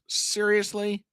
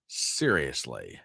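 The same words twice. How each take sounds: First: High disbelieving seriously; can't believe it; incredulous. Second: Low, slow, deflated seriously; resigned. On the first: Reacting to a rude viewer, high disbelief. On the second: Answering his own shocked question, low and resigned. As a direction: let it sink in, defeated. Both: Real, not acted.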